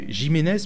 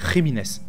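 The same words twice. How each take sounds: First: The name starts with a soft French J sound. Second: The name starts with a throaty R-like sound. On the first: The speaker calls it wrong. "c'est pas Jiménez" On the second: The speaker calls it right. "le J se prononce R"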